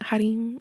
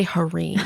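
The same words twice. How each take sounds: First: Put-on Harim in a Hispanic accent, R tapped; his Hispanic accent. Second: Harim with a hard American R; Harim, R fully American and untapped. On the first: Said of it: "he says it all with his accent". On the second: Retold or imitated. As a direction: say Harim anglicized, no rolled R. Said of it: "Hard R".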